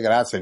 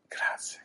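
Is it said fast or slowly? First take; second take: fast; slowly. First: It is said fast. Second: It is said slowly.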